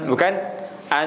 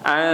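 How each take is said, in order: First: The n is pronounced clearly and fully. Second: The n is hidden into a nasal sound. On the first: The speaker calls it wrong. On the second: The speaker calls it right.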